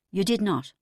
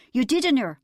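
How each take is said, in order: First: Said in the usual way. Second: High, loud mock agreement; husband sneering at his wife's boast; sarcastic. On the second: A narrator's reading. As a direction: mockingly agree before the denial. Husband mocks wife's claim.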